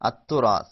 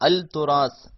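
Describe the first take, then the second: First: The L merges into a doubled t sound. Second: The L sound is clearly pronounced before t. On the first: The speaker calls it right. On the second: The speaker calls it wrong.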